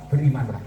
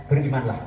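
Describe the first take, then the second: The two takes are said the same way.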